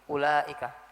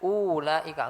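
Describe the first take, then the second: First: The first vowel is short. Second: The first vowel is drawn out long. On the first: The speaker calls it right. "tapi ulaika. Di sini wawnya bukan huruf mat" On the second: The speaker calls it wrong. "bukan bukan dibaca ulaika, enggak"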